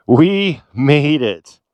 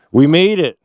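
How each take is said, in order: First: Very slow, drawn-out victory cry; savouring triumph. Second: Louder, higher burst of triumph; triumphant. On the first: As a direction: stretch out each word to savour it. Repeats it, savouring the arrival. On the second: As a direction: exclaim it in one quick celebratory burst. First cry of arrival. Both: Real, not acted.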